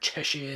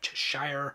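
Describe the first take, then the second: First: The word is said with a British pronunciation. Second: The word is said with an American pronunciation. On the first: "here in the U K pronounce it Shire" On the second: "instead of"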